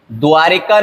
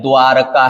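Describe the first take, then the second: First: द्वारिका with i in the middle, dwaa-ri-kaa; wrong pronunciation. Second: द्वारका with no i, dwaa-ra-kaa; correct pronunciation. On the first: Teacher showing the mistake, द्वारिका said as dwaa-ri-kaa. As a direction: say द्वारिका as dwaarika. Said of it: "नहीं है". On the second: Teacher correcting it, द्वारका said as dwaa-ra-kaa. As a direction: say द्वारका as dwaaraka. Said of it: "द्वारका है". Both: Shown as a demonstration.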